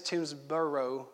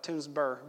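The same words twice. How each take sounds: First: Toomsboro with a full "burrow" ending; full spelled pronunciation. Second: Toomsboro shortened to "Tooms-burr"; local pronunciation. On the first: Preacher gives his dad's town its proper name, Toomsboro ending in a full "burrow". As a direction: say Toomsboro carefully, ending in two syllables, "bur-oh". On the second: Preacher shows how locals say his dad's town, Toomsboro as "Tooms-burr". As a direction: say Toomsboro with the ending cut to one syllable, "burr". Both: Shown as a demonstration. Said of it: "B U R R is the way we say it".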